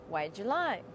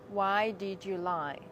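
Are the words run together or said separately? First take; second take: run together; separate. First: The words are said fast and run together. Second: The words are said slowly and separately. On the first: The speaker calls it right. "Speak fast. Say" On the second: The speaker calls it wrong. "Don't say"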